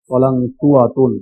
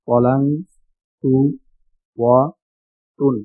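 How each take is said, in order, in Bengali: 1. শব্দটি মসৃণভাবে একসাথে জুড়ে বলা হয়েছে। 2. শব্দটি আলাদা আলাদা ভাগে বলা হয়েছে।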